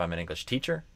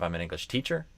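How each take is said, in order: First: The stress falls on the word teacher. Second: The stress falls on the word teacher.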